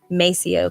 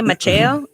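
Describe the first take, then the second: First: The middle consonant is an s sound. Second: The middle consonant is a ch sound. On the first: This is how the family says it. "Just as long as you say Maceo correctly" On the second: This is the original way to say it. "that's really the proper way to say it"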